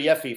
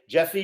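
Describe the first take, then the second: First: The name begins without a hard J sound. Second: The name begins with a hard J sound.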